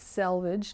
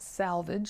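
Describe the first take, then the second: First: The first syllable sounds like 'sel'. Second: The first syllable sounds like 'sal'. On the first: The speaker calls it right. "I think it's selvage" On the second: The speaker calls it wrong. "not salvage"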